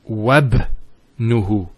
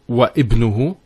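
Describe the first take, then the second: First: The glottal stop is dropped and wa links to bnuhu. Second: The glottal stop is pronounced before ibnuhu after wa. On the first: The speaker calls it right. "We go straight to the ba. So it's wabnuhu" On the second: The speaker calls it wrong. "It's not wa ibnuhu"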